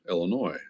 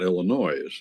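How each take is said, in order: First: The final S sound is silent. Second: The final S sound is pronounced. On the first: The speaker calls it right. "you don't pronounce the S" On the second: The speaker calls it wrong. "not Illinois"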